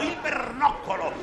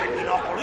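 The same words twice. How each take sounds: First: BERNOCCOLO with a clear "ber" and double C, falling at the end; emphatic correction. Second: BINOCOLO low, ending in a questioning rise; incredulous echo. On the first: Teacher correcting "binocolo" for the contestant, firm falling BERNOCCOLO. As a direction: spell out BERNOCCOLO firmly, syllable by syllable. Teacher gives the intended word. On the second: Teacher echoing the contestant's wrong word, questioning BINOCOLO. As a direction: repeat BINOCOLO as a baffled question. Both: Acted.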